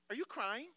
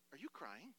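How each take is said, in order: First: Higher, incredulous repeat of the question; coach losing it. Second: Soft, incredulous question before the outburst; stunned coach. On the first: Coach to crying player, incredulous and rising. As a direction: raise the pitch in rising disbelief. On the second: Coach to crying player, stunned and quiet. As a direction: ask it quietly, in mock disbelief. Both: Acted. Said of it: "And he loses it. He's like".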